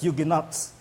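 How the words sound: It is said with an American pronunciation. "Americans pronounce it as Huguenots"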